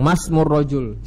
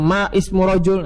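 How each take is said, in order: First: The vowel of 'ismu' is dropped and words are joined. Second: The vowel of 'ismu' is pronounced separately. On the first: The speaker calls it right. "Tapi langsung Masmur Rojul" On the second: The speaker calls it wrong. "Salah bukan Ma Ismur Rojul"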